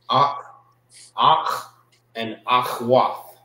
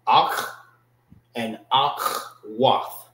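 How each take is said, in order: First: Said in the usual way. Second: Akhwath said slowly with a throaty kh; slow careful "Akh" and "akhwath", kh from the throat; proper pronunciation. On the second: Shown as a demonstration. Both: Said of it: "That's the proper way how to say it".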